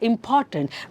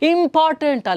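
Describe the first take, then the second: First: The stress falls on the second syllable. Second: No syllable is given clear extra force. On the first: The speaker calls it right. "ಅಲ್ಲಿ ಪಗೆ stress ಬರ್ತಾ ಇದೆ" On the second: The speaker calls it wrong. "Important ಅಲ್ಲ"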